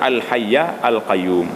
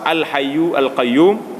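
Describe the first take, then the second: First: The word hayy ends with an a vowel. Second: The word hayy ends with a u vowel. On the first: "yang lebih fasihnya al hayya al qayyum. Baca bahagian atas" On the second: "kalau kita baca huwa al hayyu al qayyum pun betul"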